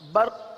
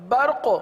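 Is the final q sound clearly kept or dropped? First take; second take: dropped; kept. First: The final q sound is dropped. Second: The final q sound is clearly kept. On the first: The speaker calls it wrong. "तो देखिए काफ हजफ हो सकती है" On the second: The speaker calls it right. "कौफ बारीक ना होने पाए"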